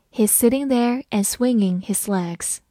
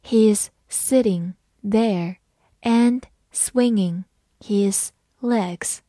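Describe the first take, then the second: First: Said in the usual way. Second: Word by word, with clear gaps; very slow, deliberate model sentence; slow reading. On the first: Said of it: "慢读一遍". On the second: Shown as a demonstration. Teacher reads the example for learners, slowly word by word. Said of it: "好，慢读一遍".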